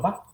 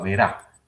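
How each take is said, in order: First: The word is cut to one short syllable. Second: The final d is dropped from the word. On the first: "al rato voy a estar diciendo, diciendo va" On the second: "me paso a verá"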